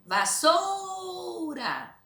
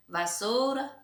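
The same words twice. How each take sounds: First: Vassoura with SOU drawn out very slowly, high; stress on SOU. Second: Said in the usual way. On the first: Shown as a demonstration. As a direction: call out vassoura, holding SOU. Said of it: "vocês vão pronunciar". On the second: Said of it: "pra vocês pronunciar e marcar".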